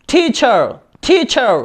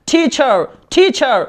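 Both takes have the same delivery.

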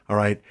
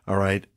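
Both takes have the same delivery.

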